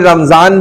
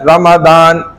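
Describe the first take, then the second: First: The middle consonant is a z sound. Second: The middle consonant is a d sound. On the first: The speaker calls it wrong. "कोई रमजान भी कहता है, ठीक है, वो गलत है" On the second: The speaker calls it right. "इसका असल प्रोनाउंस क्या है? प्रोनाउंसिएशन रमदान"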